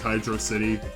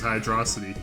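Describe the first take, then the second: First: It is said as two separate words. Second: It is said as one single word. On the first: The speaker calls it right. "right people" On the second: The speaker calls it wrong. "wrong people"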